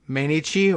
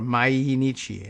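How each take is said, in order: First: The word is said anglicized, without the extra syllable. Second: The word is said with an added extra syllable. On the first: "in anglicized form" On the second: "and add that extra syllable"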